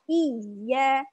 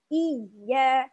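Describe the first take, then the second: Both takes have the same delivery.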